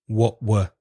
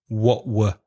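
Both takes have the same delivery.

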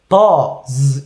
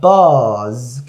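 First: The final z buzzing stops short abruptly. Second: The final z buzzing keeps sounding continuously. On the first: The speaker calls it wrong. "buzz 이렇게 하신 분들인데" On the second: The speaker calls it right. "계속 이어서 buzz"

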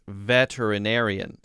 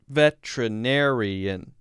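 First: The word is said with six syllables. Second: The word is said with five syllables. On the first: "which is six" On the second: "five syllables"

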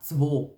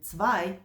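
First: The word is said in the local dialect. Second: The word is said in standard German. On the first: "а «цво»" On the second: "вони кажуть не «цвай»"

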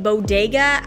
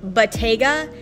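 First: The middle consonant is a D sound. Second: The middle consonant is a T sound. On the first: The speaker calls it wrong. "I'm saying bodega as in a little grocery store" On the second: The speaker calls it right. "it's pronounced bottega"

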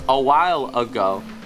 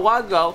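First: Each word is pronounced clearly and separately. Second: The words are slurred together and unclear. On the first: The speaker calls it right. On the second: The speaker calls it wrong.

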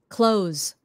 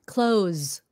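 The two takes are said the same way.

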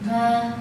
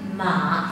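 First: The syllable is said with the first tone. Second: The syllable is said with the third tone. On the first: It means mother. "thanh một" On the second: It means horse. "thanh ba con ngựa"

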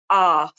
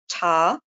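First: The word begins with a vowel. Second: The word begins with a t sound. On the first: "they might omit sounds altogether" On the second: "replace the k sound with a t sound"

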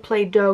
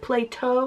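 First: The middle consonant is a soft D-like sound. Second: The middle consonant is a clear T sound.

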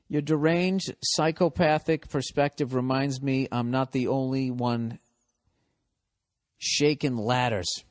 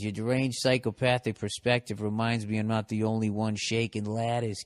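First: It is read in a plain, unmarked accent. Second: It is read in a Boston accent.

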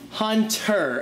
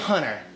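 First: The T sound is clearly pronounced. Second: The T sound is dropped, like Hunner. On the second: "I don't say Hunter. Like H-U-N-N-E-R"

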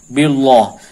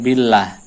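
First: The L sound is heavy and thick. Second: The L sound is light and thin. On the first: The speaker calls it wrong. "tidak dibaca billah" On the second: The speaker calls it right. "tapi billah, dibaca tipis"

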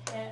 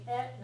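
First: It begins with an h sound. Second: It begins directly with a vowel sound. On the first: The speaker calls it wrong. "not he, when it's a particle" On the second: The speaker calls it right. "Make sure you're pronouncing it e"

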